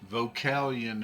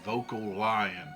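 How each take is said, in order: First: It is said as one running word. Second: It is said like the words vocal lion. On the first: "Is Vocalion how you pronounce that?" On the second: "I heard somebody pronounce it Vocal Lion"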